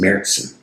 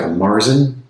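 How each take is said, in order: First: It is said with a German pronunciation. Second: It is read with an English pronunciation. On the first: "in German it's pronounced Märzen" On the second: "in English it looks like Marzen"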